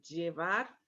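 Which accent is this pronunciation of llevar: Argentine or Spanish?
Spanish. It is said with a Spanish accent. "la pronunciación llevar y llevar"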